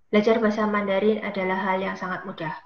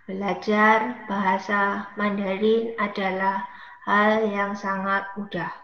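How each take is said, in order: First: The sentence is spoken at a medium pace. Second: The sentence is spoken at a slow pace.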